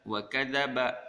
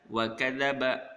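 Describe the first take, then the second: No difference in how they are said.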